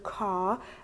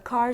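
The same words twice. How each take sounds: First: The final r sound is dropped. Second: The final r sound is pronounced.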